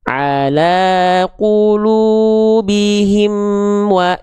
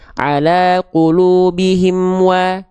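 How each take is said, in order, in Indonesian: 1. Frasa itu dibaca dengan tempo lambat. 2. Frasa itu dibaca dengan tempo cepat. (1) "kalau tempo kita lambat" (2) "Kalau kita bacanya cepat"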